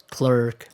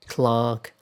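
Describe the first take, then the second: First: Clerk with an "er" vowel; American pronunciation. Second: Clerk rhyming with park; British pronunciation. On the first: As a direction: say clerk as "klurk". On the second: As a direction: say clerk as "klahk". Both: Shown as a demonstration.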